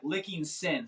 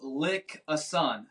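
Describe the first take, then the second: First: The name ends with a 'king sin' sound. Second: The name ends with a clear 'a son' sound. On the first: The speaker calls it right. "It's like licking sin" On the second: The speaker calls it wrong. "it's not like lick a son"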